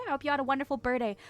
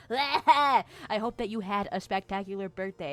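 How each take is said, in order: First: Gabbled very fast, "birthday" slurred; rushed. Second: Careful retake. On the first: Real, not acted. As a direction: rattle the wish off too fast to land it. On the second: Shown as a demonstration. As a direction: say it again properly, taking care over "birthday". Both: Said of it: "Talk correctly, May".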